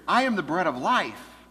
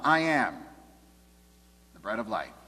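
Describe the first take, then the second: First: It runs on with no pause after "I am." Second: There is a pause after "I am."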